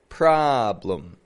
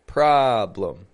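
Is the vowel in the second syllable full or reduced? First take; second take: reduced; reduced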